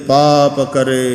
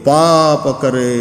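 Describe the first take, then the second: Both takes have the same delivery.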